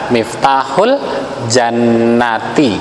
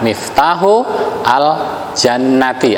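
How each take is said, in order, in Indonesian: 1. Artikel itu disambungkan dengan lancar ke kata sebelumnya. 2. Artikel al diucapkan sebagai suku kata tersendiri.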